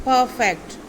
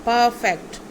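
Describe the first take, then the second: The two takes are said the same way.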